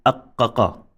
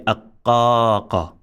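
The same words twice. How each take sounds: First: "aqqaqa" with all vowels short; unextended vowel. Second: "aqqaqa" with the middle a held long; extended vowel. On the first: Teacher showing the mistake, "aqqaqa" said short. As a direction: rattle "aqqaqa" out with no long middle a. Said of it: "here we cannot say". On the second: Teacher modelling extension, "aqqaqa" with a long middle vowel. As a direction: draw out the middle of "aqqaqa", short last syllable. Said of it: "We must say aqqaqa". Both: Shown as a demonstration.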